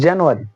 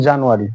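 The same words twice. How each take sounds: First: জানুয়ারি as British "jen-yoo-ary"; British pronunciation. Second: Put-on জানুয়ারি said the old Bangla way, janu-ari; the habitual local জানুয়ারি, not the British one; old wrong way. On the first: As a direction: model the correct জানুয়ারি clearly. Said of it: "এর উচ্চারণটা হবে কিরকম?". (সঠিক British উচ্চারণে জানুয়ারি) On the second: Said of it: "আমরা আগে এর উচ্চারণ করতাম". (আগের ভুল উচ্চারণে জানুয়ারি) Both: Shown as a demonstration.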